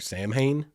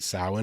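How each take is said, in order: First: It is pronounced the way it is spelled. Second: It is pronounced unlike the way it's spelled. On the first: The speaker calls it wrong. "it looks like it's spelled like Samhain" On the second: The speaker calls it right. "I don't have any clue how you get Samhain out of that, but you do, and that's what it is"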